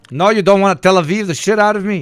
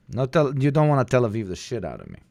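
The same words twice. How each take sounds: First: Hammed-up loud objection; loud mock protest. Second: Said in the usual way. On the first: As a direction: shout it out, raised and punchy. Mock outrage at the clip. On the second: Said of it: "repeats the line".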